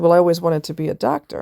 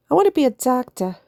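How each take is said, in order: First: Said in the usual way. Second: Imitating the nurse, pitched higher; squeaky retold nurse line; high mock nurse voice. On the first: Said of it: "And she said". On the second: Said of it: "He sounds Italian".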